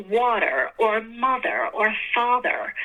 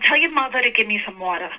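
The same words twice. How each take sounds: First: "water or mother or father" slowly, each word fully sounded; careful pronunciation. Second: Everyday New York accent, dropped r's. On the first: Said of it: "But in reality, we're like". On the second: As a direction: say it like a real New Yorker. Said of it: "you know, for New Yorkers". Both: Shown as a demonstration.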